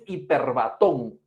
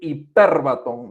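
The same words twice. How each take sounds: First: The stress is not on the 'per' syllable. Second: The stress is on the 'per' syllable. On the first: The speaker calls it wrong. "No, no es hiperbatón" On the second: The speaker calls it right. "Mira dónde está la, en la tilde, señor, está en la letra, en la vocal E"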